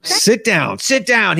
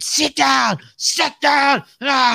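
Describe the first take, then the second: First: Raised, higher imitation of an angry coach; mock-yell a command at a player; imitated yelling. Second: Much higher, full mock shout; imitated coach yelling. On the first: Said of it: "He's, like, yelling at his". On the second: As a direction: imitate a coach screaming orders at a player. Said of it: "yelling at the dude".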